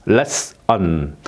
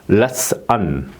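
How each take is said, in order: The two takes are said the same way.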